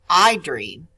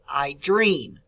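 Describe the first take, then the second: First: The word I carries the stress. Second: The word dream carries the stress. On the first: The speaker calls it wrong. "it's not I dream" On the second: The speaker calls it right. "Dream is the word that has the emphasis or the stress"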